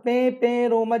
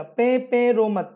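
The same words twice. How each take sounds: First: Said in the usual way. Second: Stretched out slowly, word by word; slow mnemonic drill. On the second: Shown as a demonstration. Teacher drilling a memory trick for students, slow and deliberate. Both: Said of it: "कैसे याद रखोगे".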